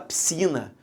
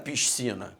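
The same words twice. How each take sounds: First: The s before the c is not pronounced. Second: The s before the c is clearly pronounced. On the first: The speaker calls it right. "você não fala a letra S, você só fala a letra C" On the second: The speaker calls it wrong. "Você não fala piscina"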